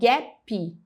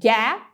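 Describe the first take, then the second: First: An extra vowel sound is added at the end. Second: It ends cleanly on the final consonant sound. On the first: Native listeners do not understand it. The speaker calls it wrong. "colocando uma vogal extra no final da palavra" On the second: Native listeners understand it. The speaker calls it right. "porque você está falando uma sílaba"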